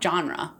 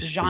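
First: The word begins with a hard G sound. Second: The word begins with a soft G sound. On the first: The speaker calls it wrong. "It's not genre" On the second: The speaker calls it right. "I think it's a soft G"

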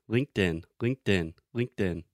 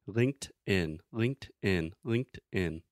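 First: It is said at a faster pace. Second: It is said at a slower pace.

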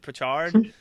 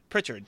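First: The stress is on the second syllable. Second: The stress is on the first syllable.

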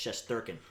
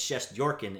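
First: The name is pronounced the North American way. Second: The name is pronounced the Russian way. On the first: This is how it is said in North America. "North America, it's Shesterkin" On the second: This is how it is said in Russia. "in Russia, it's Shesterkin"

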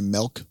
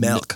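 First: The word is said in a Midwestern accent, like melk. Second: The word is said in a standard accent. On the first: "You ever hear somebody say milk?" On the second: "Instead of milk"

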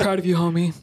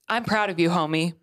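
First: It is said in a put-on deep man voice. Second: It is said in her normal voice.

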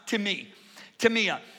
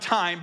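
First: The word is said with a final 'ah' syllable. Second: The word is said without a final 'ah' syllable. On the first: The speaker calls it right. "but it's pronounced timia" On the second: The speaker calls it wrong. "you would pronounce it time"

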